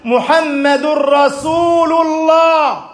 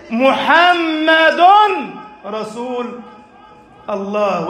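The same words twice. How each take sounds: First: A ringing call from the pulpit; slow proclamation. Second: A slow climb that sinks to near hush; spaced-out creed. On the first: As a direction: proclaim محمد رسول الله slowly, full voice. Preacher proclaims the creed. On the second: Preacher repeats the creed, spaced out. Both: Acted.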